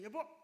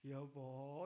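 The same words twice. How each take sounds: First: It sounds angry and sharp. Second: It sounds cute and affectionate.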